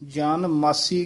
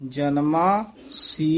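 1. ਵਿਸਰਾਮ "jan" ਦੇ ਠੀਕ ਬਾਅਦ ਆਉਂਦਾ ਹੈ। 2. ਵਿਸਰਾਮ "janma" ਦੇ ਠੀਕ ਬਾਅਦ ਆਉਂਦਾ ਹੈ। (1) "ਕਈ ਪਾਠੀ ਜਨ ਮਾਸੀ ਕਹਿ ਦਿੰਦੇ ਹਨ, ਉਹ ਤਾਂ ਬਿਲਕੁਲ ਗਲਤ ਹੈ" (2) "ਗੋਵਿੰਦ ਜਨਮਾ ਸੀ ਇਸ ਤਰ੍ਹਾਂ ਬੋਲਣਾ"

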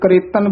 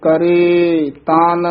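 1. ਦੋਵੇਂ ਸ਼ਬਦ ਇਕੱਠੇ ਮਿਲਾ ਕੇ ਇੱਕ ਵਾਂਗ ਬੋਲੇ ਜਾਂਦੇ ਹਨ। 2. ਦੋਵੇਂ ਸ਼ਬਦ ਵੱਖ-ਵੱਖ ਰੱਖੇ ਜਾਂਦੇ ਹਨ। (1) "ਕਈ ਕਰੇਤਨ ਬੋਲ ਜਾਂਦੇ ਹਨ" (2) "ਨਖੇਰ ਕੇ ਪੜੇ ਜਾਣਗੇ ਤਾਂ ਇਹ ਸ਼ੁੱਧ ਉਚਾਰਨ ਹੋਏਗਾ"

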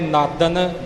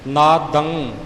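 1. ਇਹ ਸ਼ਬਦ ਪੂਰੀ n ਆਵਾਜ਼ ਨਾਲ ਖ਼ਤਮ ਹੁੰਦਾ ਹੈ। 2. ਇਹ ਸ਼ਬਦ ਗਲੇ ਵਿੱਚ ਰੁਕੀ ਨਾਸਕ ਆਵਾਜ਼ ਨਾਲ ਖ਼ਤਮ ਹੁੰਦਾ ਹੈ। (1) "ਨਾਦਨ ਜਾਂ ਨਾਦੰਗ ਜਾਂ ਨਾਦਮ ਨਹੀਂ ਬਣੇਗਾ" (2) "ਇਹ ਸਾਡੇ ਗਲੇ ਵਿੱਚ ਆਵਾਜ਼ ਰਹਿ ਜਾਵੇਗੀ, ਇਹਨੂੰ ਇਸੇ ਤਰ੍ਹਾਂ ਬੋਲਣਾ ਹੈ"

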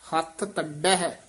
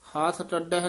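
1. ਇਹ ਸ਼ਬਦ ਪੱਕੇ ਅਤੇ ਕਸ ਕੇ ਬੋਲੇ ਗਏ ਹਨ। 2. ਇਹ ਸ਼ਬਦ ਢਿੱਲੇ ਅਤੇ ਢਿੱਲ-ਮੱਠ ਨਾਲ ਬੋਲੇ ਗਏ ਹਨ। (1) "ਇਹ ਦੋਵੇਂ ਪਦ ਜਿਹੜੇ ਨੇ ਕਸ ਕੇ ਬੋਲਨੇ ਆ" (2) "ਨਹੀਂ ਬੋਲਣਾ"

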